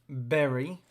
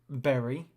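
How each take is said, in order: No difference in how they are said.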